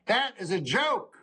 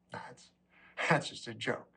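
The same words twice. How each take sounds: First: "That" and "joke" hit hard, pitched up; higher, deliberate stress on "joke"; emphatic insistence. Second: Low, quiet, with a little laugh; soft laughing aside; chuckling disclaimer. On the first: Acted. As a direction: declare "That is a joke" firmly, punching "joke". Restates the disclaimer emphatically. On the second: Real, not acted. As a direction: brush it off softly through a chuckle. Brushes off shocking line, then insists.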